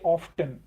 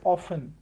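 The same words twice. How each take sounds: First: The word is said with a pronounced T. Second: The word is said with a silent T. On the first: This is how people say it these days. "people pronounce that T sound in it and they say often" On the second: This is the older way it was learned. "with T silent in it. We learnt it as often"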